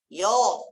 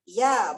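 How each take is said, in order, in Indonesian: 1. Huruf itu dibaca tebal dengan vokal membulat. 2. Huruf itu dibaca tipis dengan vokal terbuka. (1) "Jangan yo" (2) "ya, buka"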